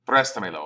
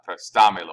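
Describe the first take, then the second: First: Préstamelo with the stress on PRÉS; correct stress. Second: "préstamelo" said louder with the stress off the first syllable; wrong stress. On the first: Teacher models the right stress on préstamelo for the class. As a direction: say "préstamelo" leaning on the first syllable PRÉS. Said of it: "put an accent over that syllable right there, so you s-, speak a little bit louder". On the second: Teacher shows students how préstamelo should not sound. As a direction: model the wrong way, stressing away from PRÉS. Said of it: "and so it's not". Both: Shown as a demonstration.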